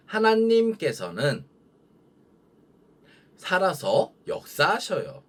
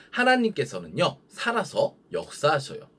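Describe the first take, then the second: First: Slow, high, drawn-out line for repeating; call-and-repeat model. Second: Said in the usual way. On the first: Shown as a demonstration. Preacher to children repeating after them, slow lead-in voice. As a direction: lead the children slowly in raised pitch, pausing between phrases. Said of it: "큰 목소리로 읽어보도록". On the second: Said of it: "전도사님 따라하면 돼요".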